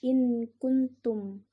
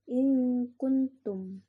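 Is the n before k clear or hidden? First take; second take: clear; hidden. First: The n before k is said clearly. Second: The n before k is hidden and nasal. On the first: The speaker calls it wrong. "Jangan dijelaskan kayak gini" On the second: The speaker calls it right. "nun itu sembunyi sebelum huruf ikhfa"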